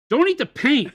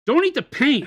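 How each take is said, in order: First: It sounds angry. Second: The same.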